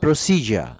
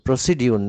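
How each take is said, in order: First: The middle consonant sounds like j. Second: The middle consonant sounds like d followed by y. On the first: The speaker calls it right. "না প্রসিজার" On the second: The speaker calls it wrong. "প্রসিডিউর না"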